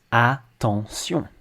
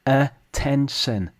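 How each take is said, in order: First: Attention slowly as ah-ton-syon; French pronunciation. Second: Attention drawn out as uh-TEN-shun; slow attention, A and O both uh; English schwa vowels. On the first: Teacher contrasts with English, slow French pronunciation of attention. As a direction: say attention in French, full A, nasal endings. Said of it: "Whereas in French". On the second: Teacher shows both vowels match, slow English attention. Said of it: "the same in English". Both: Shown as a demonstration.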